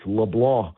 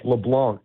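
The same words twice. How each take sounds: First: The name is said the French Cajun way. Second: The name is said the plain English way. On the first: The speaker calls it right. "It's got a French Cajun pronunciation" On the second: The speaker calls it wrong. "It looks like"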